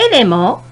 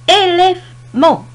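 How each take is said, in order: First: Said in the usual way. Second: "élément" slow and high, split into syllables. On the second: Shown as a demonstration. Teacher showing syllables to learners, "élément" slowly broken up. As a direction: stretch "élément" out, pausing before the last syllable. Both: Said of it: "la première syllabe commence et se termine".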